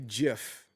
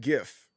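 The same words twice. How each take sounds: First: It begins with a j sound. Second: It begins with a hard g sound. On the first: The speaker calls it wrong. "it just doesn't make sense to call it a a, a a GIF because in that case they would just put a J in front of it" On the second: The speaker calls it right. "I always said GIF"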